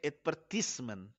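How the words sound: It is said with a British accent.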